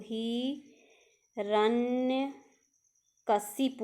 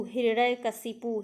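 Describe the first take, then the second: First: हिरण्यकशिपु drawn out syllable by syllable; spelled out slowly. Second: Said in the usual way. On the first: Shown as a demonstration. Teacher to students, slowly spelling out हिरण्यकशिपु. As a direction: stretch हिरण्यकशिपु slowly for the class. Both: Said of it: "होता है".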